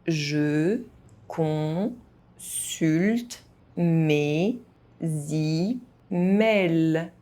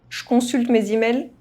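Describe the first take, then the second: First: It is spoken very slowly, syllable by syllable. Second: It is spoken fast, with some sounds dropped. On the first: "very slowly" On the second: "fast, as a native speaker would do"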